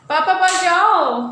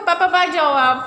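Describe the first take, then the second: First: Put-on पापा बाहर जाओ said louder and slower for the child to copy; coaching her son to send papa out, louder and slow; slow loud prompt. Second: Said in the usual way. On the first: Shown as a demonstration. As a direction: call it out slowly so the boy repeats it. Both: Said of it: "prompting toddler to tell papa".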